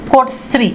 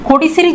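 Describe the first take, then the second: First: The i vowel after d is dropped. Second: The i vowel after d is pronounced fully.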